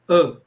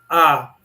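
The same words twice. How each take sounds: First: The vowel is short and closed. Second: The vowel is long and open. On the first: "ele é fechado e curto" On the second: "esse é o A longo"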